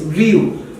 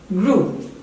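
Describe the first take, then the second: First: The vowel is not a plain oo sound. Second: The vowel is a plain oo sound. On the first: The speaker calls it wrong. "many would pronounce just the way it is written" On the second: The speaker calls it right. "The actual pronunciation of this word"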